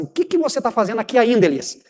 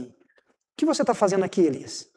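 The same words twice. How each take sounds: First: Mild exasperation on "ainda" in "aqui ainda"; God pressing the prophet, a touch fed up; impatient question. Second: Soft, concerned "O que você tá fazendo aqui, Elias?" asked tenderly; a quietly caring God asking the prophet; gentle caring question. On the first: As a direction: ask it like you've run out of patience. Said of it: "Deus tá falando mais ou menos assim". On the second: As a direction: ask it like you truly care how he is. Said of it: "O tom da pergunta". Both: Shown as a demonstration.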